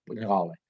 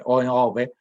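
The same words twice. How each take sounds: First: Ñove said through a laugh, velar nasal and open O; amused demo of ñove. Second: Ñove drawn out slowly and louder, velar nasal and open O; emphatic slow ñove. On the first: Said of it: "pronuncia así, con la nasal velar". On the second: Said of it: "con la nasal velar y con la O abierta". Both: Shown as a demonstration.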